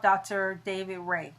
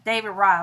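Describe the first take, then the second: First: "Ray" said to rhyme with "day"; mistaken surname pronunciation. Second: "Rye" said to rhyme with "eye"; corrected surname pronunciation. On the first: Speaker recommending her neurologist by name, mispronounced "Ray" with AY. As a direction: say "Ray" with a long AY vowel. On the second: Speaker fixing her neurologist's name, corrected "Rye" with long I. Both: Real, not acted. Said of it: "I'm sorry".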